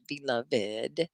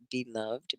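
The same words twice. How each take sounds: First: BELOVED as "be-luv-id", softer; extra final syllable. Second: BELOVED softly as "be-luvd"; silent final e. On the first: Teacher lists tricky words, extra syllable. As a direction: give the -ed of BELOVED its own beat. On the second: Teacher lists tricky words, last syllable merged. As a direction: end BELOVED on -vd, low and soft. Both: Shown as a demonstration. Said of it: "you would think that it was two syllables".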